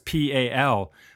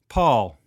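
First: The name rhymes with 'gal'. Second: The name rhymes with 'ball'. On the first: The speaker calls it wrong. "I was just going to call you Pal because it's P-A-L" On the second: The speaker calls it right. "but it's actually pronounced Paul"

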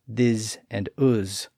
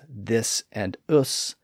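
First: The words end with a buzzing z sound. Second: The words end with a hissing s sound. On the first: "He spelled words like this and us with both an S and a Z" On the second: "He spelled words like this and us with both an S and a Z"

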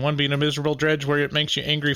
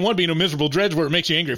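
First: It is said with low energy. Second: It is said with high energy.

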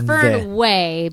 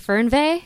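First: The name is pronounced with English sounds. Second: The name is pronounced with German sounds. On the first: This is the simpler everyday pronunciation. "because we're in America and it's easier that way" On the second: This is the original pronunciation. "So in German, it'd be Fernweh"

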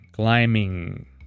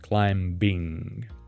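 First: No B sound is heard after the M. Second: A B sound is heard after the M. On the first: The speaker calls it right. "the gerund form would be climbing" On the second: The speaker calls it wrong. "and not climbing"

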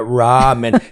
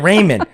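First: The first vowel is said with rounded lips. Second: The first vowel is unrounded, like 'Raymond'. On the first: The speaker calls it right. "round off your lips to ramen" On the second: The speaker calls it wrong. "I ain't got no time to pronounce it right"

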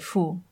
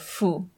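First: The word begins with an h sound. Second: The word begins with an f sound. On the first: "instead of" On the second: "in Hunan, instead of H, they'll use an F"

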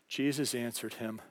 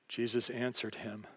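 The two takes are said the same way.

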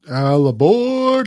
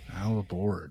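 First: It is screamed loudly. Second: It is said at normal volume.

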